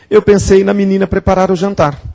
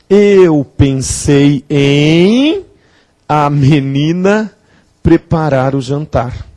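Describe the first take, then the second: First: The preposition and article are contracted together. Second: The preposition and article are said separately. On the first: The speaker calls it wrong. "Isso está errado" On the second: The speaker calls it right. "menina é sujeito de preparar"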